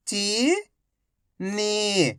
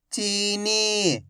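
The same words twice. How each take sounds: First: Each syllable slowly held, first one rising. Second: Whole word in one go, vowels held; syllables joined. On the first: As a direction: break the word into long, separate syllables. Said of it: "एक अक्षर का उच्चारण करके". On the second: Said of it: "तो मिलके बन जाएगा". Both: Shown as a demonstration.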